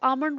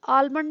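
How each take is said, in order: First: The L sound is left silent. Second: The L sound is clearly pronounced. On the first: The speaker calls it right. "आमंड बोलते हैं वो" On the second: The speaker calls it wrong. "आलमंड नहीं बोलते उसको"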